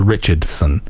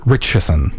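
First: Richardson said in full; careful Richardson. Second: Richardson with the middle d dropped; Richardson, lower, middle consonant swallowed; reduced Richardson. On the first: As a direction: sound out every syllable of Richardson. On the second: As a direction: run Richardson together like "Rich-a-son". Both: Shown as a demonstration. Contrasts two ways of saying name.

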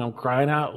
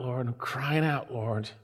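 First: Said in the usual way. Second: Soft, low, fading cry to the Lord; hushed plea. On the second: Acted. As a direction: let the prayer sink to a hush. Preacher voices a pleading prayer.

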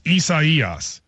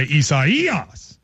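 First: Isaias with the stress on the third syllable, slowly. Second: Isaias with the stress on the third syllable. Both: Shown as a demonstration. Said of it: "It goes on the third syllable".

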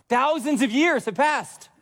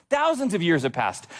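First: High, slow, stretched-out delivery; emphatic proclamation. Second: Said in the usual way. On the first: Real, not acted. Preacher marvels at the long wait, high emphatic proclamation. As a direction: proclaim THOUSANDS and YEARS high and drawn out.

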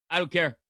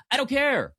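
First: Said in the usual way. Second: I don't care much higher, dismissive; emphatic dismissive brush-off. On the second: Real, not acted. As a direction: wave the whole rule away, pitched up high. Brushing off the scheduling rule.

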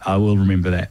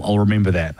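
First: Will said in full and pressed a little; stress on will. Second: Said in the usual way. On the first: Shown as a demonstration. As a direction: lean on the word will, not I'll.

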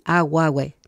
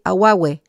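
First: Aguahue repeated clearly as in Spanish; careful pronunciation. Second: Aguahue said as a-gua-hue in Spanish sounds; careful pronunciation. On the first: Teacher repeating a word for learners, careful aguahue. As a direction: say aguahue plainly, syllable by syllable. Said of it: "Para que lo entienda bien". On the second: Teacher showing learners how to pronounce aguahue. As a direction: clearly spell out aguahue by sound. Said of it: "se pronuncia, tal como digo". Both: Shown as a demonstration.

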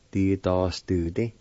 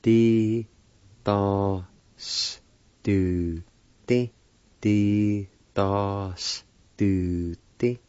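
First: Said in the usual way. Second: Slow, each syllable drawn out separately; syllable-by-syllable pronunciation. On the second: Shown as a demonstration. Teacher demonstrating a Cherokee word for learners, syllable by syllable. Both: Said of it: "is pronounced like this".

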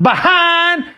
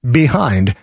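First: BEHIND high and drawn out in a fake Southern twang; mock Southern twang. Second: Said in the usual way. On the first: Host correcting a politician's fake accent, exaggerated Southern twang. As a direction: stretch BEHIND mockingly, pitched up, Southern. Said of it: "Not behind". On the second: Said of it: "the word is behind".

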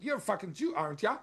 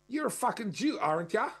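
First: Light mock Australian bogan taunt, raised pitch; imitating an ocker bogan jeer; Australian bogan accent. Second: Mock broad Australian bogan jeer, pitched up; imitating an ocker bogan taunting a stranger; Australian bogan accent. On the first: Man repeating the bogan's taunt, Australian accent. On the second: Man mimicking a bogan's jeer at a car's owners, Australian accent. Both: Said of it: "this kind of bogan accent".

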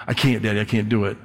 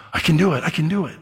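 First: Low, softening mock child's protest; doubting child. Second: Higher-pitched, gasping little discovery; amazed child. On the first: Child to Daddy before trying, lightly acted discouragement. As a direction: trail down in lightly acted defeat. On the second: Acted. Child to Daddy on finally managing it, acted amazement.

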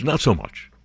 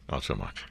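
First: Said in the usual way. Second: "Not so much" repeated much softer and lower, as a throwaway; quiet echo. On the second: Real, not acted. Host repeats his joke to listeners, much softer and lower. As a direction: mutter "Not so much" again under the breath.

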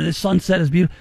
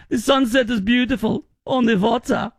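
First: Said in the usual way. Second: Hammed-up German accent, pitched up; mock German accent. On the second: Host voicing a German visitor at sunset, mock German accent. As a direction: play a delighted German tourist, higher. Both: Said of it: "you should say in a German accent".

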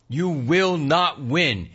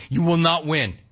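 First: "You will not win" slowed right down, each word weighted; slow emphatic repeat. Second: Said in the usual way. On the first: Real, not acted. Radio host repeats warning.

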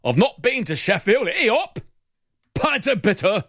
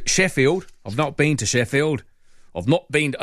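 First: High, hammed-up British accent. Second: Put-on lightly slipped-into British accent. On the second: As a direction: drift into a hint of British accent. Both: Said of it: "I've suddenly slipped into a British accent".

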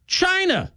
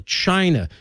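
First: China jumps much higher, then falls off; spring China as the answer, high and sharp; punched reveal. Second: Said in the usual way. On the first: Real, not acted. Host revealing the culprit to listeners, punched high. Rhetorical reveal after a question.

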